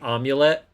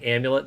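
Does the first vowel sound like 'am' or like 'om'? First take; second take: om; am. First: The first vowel sounds like 'o' in omelet. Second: The first vowel is the usual 'a' sound. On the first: The speaker calls it wrong. "like omelet? / Yeah" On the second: The speaker calls it right. "instead of saying amulet"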